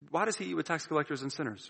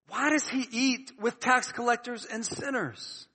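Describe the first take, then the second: First: It is asked in a casual, curious tone. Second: It is asked in an indignant, disapproving tone.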